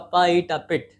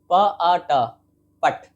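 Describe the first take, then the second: First: The vowel is a short 'ih' sound. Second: The vowel is an open 'ah' sound. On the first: The speaker calls it right. "तो आई का short sound ई है" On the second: The speaker calls it wrong. "अगर आई का sound आ होता ना sir तो P आई T क्या होता?"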